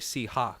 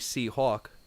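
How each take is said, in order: First: The vowel in hawk is an open o sound. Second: The vowel in hawk is a rounded aw sound. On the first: "they take the A W and turn it into a O" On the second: "I think I'm pronouncing it correctly"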